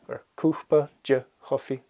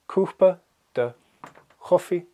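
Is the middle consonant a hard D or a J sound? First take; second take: J sound; hard D. First: The middle consonant is a soft J sound. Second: The middle consonant is a hard D sound.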